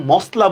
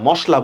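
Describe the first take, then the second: First: মশলা with a hissed s before l; rejected form with s. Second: মশলা with palatal sh before l; usual form with sh. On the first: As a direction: say মশলা as "mosla", with a dental s. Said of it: "এটা মশলা বলি না". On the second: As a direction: say মশলা as "moshla", with a hushing sh. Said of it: "মশলা বলি". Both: Shown as a demonstration.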